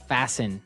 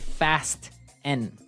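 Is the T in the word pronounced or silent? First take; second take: silent; pronounced. First: The T sound is silent. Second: The T sound is pronounced clearly. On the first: The speaker calls it right. "The T kind of becomes silent. So it's fasten" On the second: The speaker calls it wrong. "so it would be fast N. No"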